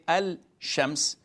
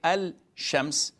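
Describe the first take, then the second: First: The L is clearly pronounced before the sh. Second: The L is clearly pronounced before the sh.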